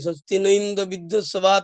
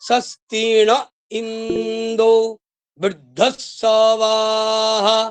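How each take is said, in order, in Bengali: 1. এটি একসুরে পাঠ করা হয়, কোনো স্বরাঘাত ছাড়া। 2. এটি উঠতি ও নামতি স্বরাঘাত সহ পাঠ করা হয়। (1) "সাধারণ ব্রাহ্মণরা কেমন পাঠ করে... তাও ভুল" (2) "স্বর দিয়ে শিখবেন, সস্বর পাঠ করবেন"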